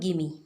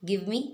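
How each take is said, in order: First: The words are blended into one reduced form. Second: Both words are pronounced fully and separately.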